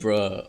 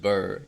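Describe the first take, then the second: First: The syllable sounds like bruh. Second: The syllable sounds like burr. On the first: The speaker calls it wrong. "you don't say bruh over there" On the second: The speaker calls it right. "It's it's just burr"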